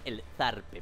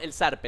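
First: The z is pronounced like a th sound. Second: The z is pronounced like an s sound.

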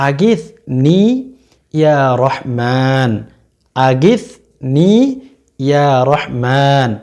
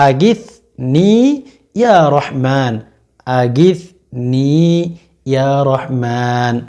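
The two takes are said the same way.

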